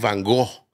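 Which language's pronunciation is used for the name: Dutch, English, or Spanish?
Spanish. It is said with a Spanish pronunciation. "tú y yo le decimos Van Gogh"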